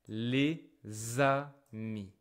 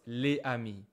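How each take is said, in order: First: A z sound links les to amis. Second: No z sound links les to amis. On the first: The speaker calls it right. "Suddenly the S sound create a Z like this" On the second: The speaker calls it wrong. "not les amis"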